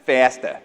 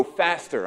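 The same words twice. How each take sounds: First: "Faster" with the final r dropped; non-American pronunciation. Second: Said in the usual way. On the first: Shown as a demonstration. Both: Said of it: "that's my American accent".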